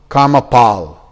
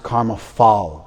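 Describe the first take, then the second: First: The second word begins with a p sound. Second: The second word begins with an f sound. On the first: The speaker calls it right. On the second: The speaker calls it wrong.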